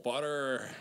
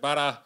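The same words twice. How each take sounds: First: The final r is pronounced, Canadian style. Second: The final r is dropped, Australian style.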